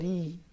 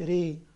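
First: The r is light and thin. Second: The r is heavy and full. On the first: The speaker calls it right. "لأن الراء لما يكون تحتها كسرة تبقى ري" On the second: The speaker calls it wrong. "مش ري"

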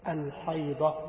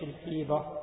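First: The first vowel is an open 'a' sound. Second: The first vowel is an 'i' sound. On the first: The speaker calls it right. "الأقوى أن تكون بالفتح" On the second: The speaker calls it wrong. "مش الحيضة"

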